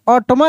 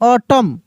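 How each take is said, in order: First: The word ends with an audible n sound. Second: The word ends without any n sound. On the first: The speaker calls it wrong. "यानी ऑटमन नहीं" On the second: The speaker calls it right. "एन ... यह silent letter है"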